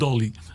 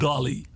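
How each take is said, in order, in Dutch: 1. De naam wordt met een Nederlands accent uitgesproken. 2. De naam wordt met een Amerikaans accent uitgesproken. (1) "Wij zeggen gewoon net als [name] of [name], is het Dolly" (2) "Is niet meer Dolly"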